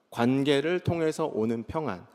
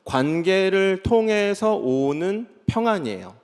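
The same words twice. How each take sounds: First: Quiet recap; softer restatement. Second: 통해서 stretched out, slow and deliberate; teaching the key phrase slowly; slow emphatic definition. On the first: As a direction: repeat 통해서 phrase softer, falling. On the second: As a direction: lay out each word slowly. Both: Shown as a demonstration. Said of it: "이렇게 얘기할 수 있는 거예요".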